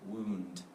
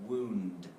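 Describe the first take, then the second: Both takes have the same delivery.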